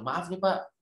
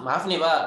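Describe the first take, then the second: First: It is said in a gentle, soft tone. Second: It is said in an angry, confrontational tone. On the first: It is a polite, respectful reproach. The speaker calls it right. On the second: It sounds like picking a fight. The speaker calls it wrong.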